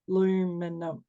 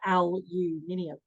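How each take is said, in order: First: It is said with an American accent. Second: It is said with an Australian accent. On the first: "in America it's aluminum. They go" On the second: "in Australia we go aluminium"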